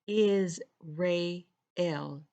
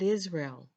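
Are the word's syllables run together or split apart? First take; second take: split apart; run together. First: The syllables are said separately, ending in ray-el. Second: The syllables are run together in the usual way. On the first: The word names beings of light. The speaker calls it right. "Is Ray-el, not Israel" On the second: The word names the familiar people and place. The speaker calls it wrong. "not Israel"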